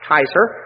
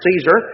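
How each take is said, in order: First: The title is pronounced the Latin way. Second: The title is pronounced the English way. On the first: "the Latin pronunciation was more like Kaiser" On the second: "We say we pronounce it Caesar"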